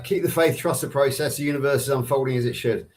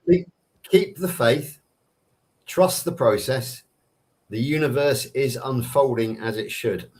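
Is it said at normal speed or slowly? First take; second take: normal speed; slowly. First: It is said at normal speed. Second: It is said more slowly.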